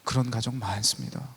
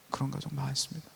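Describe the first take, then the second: First: Said in the usual way. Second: Much softer, almost to oneself; soft echo. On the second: Shown as a demonstration. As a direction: repeat it quietly, letting it sink in. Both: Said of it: "pastor's reply said twice".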